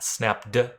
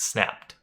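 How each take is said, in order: First: The ending is not a plain T sound. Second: The ending is a plain T sound. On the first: The speaker calls it wrong. "It's not snapped" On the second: The speaker calls it right. "snapped with a T sound"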